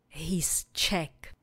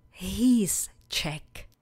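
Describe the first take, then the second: First: "He's Czech" whispered, softer. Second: Said in the usual way. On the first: Shown as a demonstration. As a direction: breathe "He's Czech" quietly for repetition. (šeptem „He's Czech“) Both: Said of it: "Opakujte po mně".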